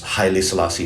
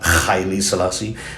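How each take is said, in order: First: The name begins with a soft h sound. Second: The name begins with a harsh kh sound. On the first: "people would say it's it's Haile Selassie" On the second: "it begins with the Arabic kha instead of the Arabic ha"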